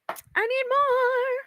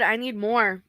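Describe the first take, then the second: First: High, drawn-out mock wail; comic pleading. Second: Said in the usual way. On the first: Streamer wants more water, playful high drawn-out plea. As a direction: stretch it out in a silly high voice.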